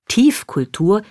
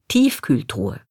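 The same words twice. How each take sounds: First: "Tiefkultur" said slowly, with u in -kultur; "Tiefkultur" set out as a misspoken Tiefkühltruhe; mother's word slip. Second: Said in the usual way. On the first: Retold or imitated. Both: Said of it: "statt Tiefkühltruhe".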